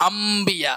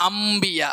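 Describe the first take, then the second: No difference in how they are said.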